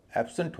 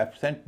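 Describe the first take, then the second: First: एब्सेंट as "ab-sunt"; reduced second vowel. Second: एब्सेंट as "ab-sent" with clear E; full second vowel. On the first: Teacher giving the actual pronunciation, एब्सेंट as "ab-sunt". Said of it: "इसका उच्चारण एब्सेंट हो रहा". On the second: Teacher showing what is not said, एब्सेंट as "ab-sent". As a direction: sound the SENT in एब्सेंट fully. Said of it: "एब्सेंट नहीं हो रहा". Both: Shown as a demonstration.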